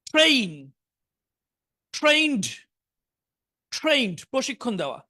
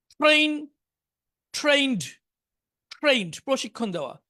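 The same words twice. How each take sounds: The two takes are said the same way.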